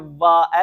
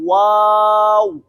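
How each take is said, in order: First: Upper teeth touch the lower lip. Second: The lips are rounded, teeth not touching. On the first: The speaker calls it wrong. "ऊपर वाले दांत निचले होंठ के साथ नहीं लगाने, वाह ऐसे नहीं" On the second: The speaker calls it right. "बल्कि होंठ गोल करने"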